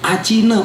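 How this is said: The t sounds like a ch sound. "orang India, orang Bangladesh, orang Myanmar"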